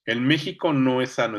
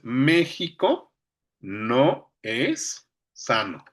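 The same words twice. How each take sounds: First: Said in the usual way. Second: MÉXICO drawn out, then NO and ES held apart; hiato marcado. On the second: Shown as a demonstration. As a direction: split "no es" into two slow, separate syllables. ("no es" separado, con hiato) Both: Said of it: "es una sílaba y el es es otra".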